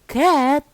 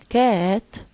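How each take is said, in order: First: The pitch rises and then falls. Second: The pitch falls and then rises. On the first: "with uh, rising falling" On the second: "with um, uh, falling rising"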